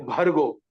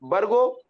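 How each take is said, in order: First: भर्गो with a strong breath after the b, bhargo; aspirated bh. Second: भर्गो said as bargo, with no puff after the b; unaspirated b. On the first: Teacher contrasts two versions, aspirated bhargo for भर्गो. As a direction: push air through the bh of भर्गो. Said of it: "और एक भर्गो". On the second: Teacher contrasts two versions, bargo for भर्गो. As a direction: drop the h from भर्गो, making it bargo. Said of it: "बा और भा में". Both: Shown as a demonstration.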